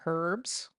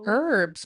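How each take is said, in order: First: The word begins with an audible H sound. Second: The word begins without an H sound. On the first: The speaker calls it wrong. "not herbs" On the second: The speaker calls it right. "it's herbs. The H is silent"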